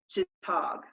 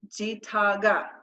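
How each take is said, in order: First: The word ends without the final vowel sound. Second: The word ends with a final vowel sound. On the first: This is the casual conversational form. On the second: This is the full careful form.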